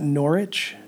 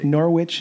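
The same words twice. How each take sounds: First: The w in the middle is silent. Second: The w in the middle is pronounced. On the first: The speaker calls it wrong. "not Norwich?" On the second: The speaker calls it right. "You say the W"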